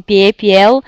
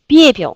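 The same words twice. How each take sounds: First: "pie, piel" with a full ye in both syllables; unreduced e, non-Russian. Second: "piepil" with stressed first syllable, short i in the second; reduced e as i. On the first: Teacher showing students what to avoid, both vowels full. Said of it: "c'est pas russe". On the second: Teacher showing students the right Russian way, second vowel reduced. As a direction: hit PIE in "piepil" and let the ending shrink. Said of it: "vous dites piepil". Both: Shown as a demonstration.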